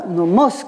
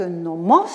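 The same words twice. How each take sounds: First: Nomos with the accent on the final "mos"; stress on the last syllable. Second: Said in the usual way. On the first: Shown as a demonstration. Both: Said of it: "quand il est accentué sur la dernière syllabe".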